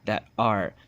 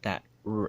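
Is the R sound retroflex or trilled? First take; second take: trilled; retroflex. First: The R is a trilled, rolled R. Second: The R is a retroflex, American-style R. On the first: It reflects the original Spanish pronunciation. "it's going to originally be a trilled R sound" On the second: It reflects English influence on the language. "that American retroflexed R for that rhotic sound"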